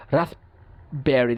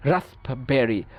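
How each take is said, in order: First: Raspberry drawn out very slowly, stopping after rasp before berry; slow, halting raspberry. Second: Said in the usual way. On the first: Shown as a demonstration. Teacher shows students the effortful p in a slow, halting raspberry. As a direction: stretch raspberry and pause hard after rasp. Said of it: "দেখেন, রাস্প বলে যখন আমরা থামি". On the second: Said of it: "দেখেন, চেষ্টা করি".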